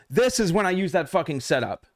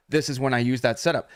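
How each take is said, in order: First: "This" hit higher and harder, falling at the end; driving home the point; emphatic repeat. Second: Said in the usual way. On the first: Shown as a demonstration. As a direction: punch "This is when I use that fucking setup" with a higher start.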